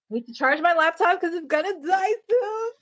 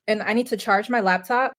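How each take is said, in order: First: Much higher, crying out in mock panic; high mock distress shout; high whiny wail. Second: Said in the usual way. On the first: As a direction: wail it like the laptop is dying. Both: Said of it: "Uh-oh".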